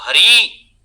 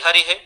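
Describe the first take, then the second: First: The final vowel is long. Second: The final vowel is short. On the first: The speaker calls it right. "ऐसा दीर्घ इकार घटित उच्चारण" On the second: The speaker calls it wrong. "छात्र आमतौर पे हरिः हरिः हर्यः इस तरीके का उच्चारण करते हैं"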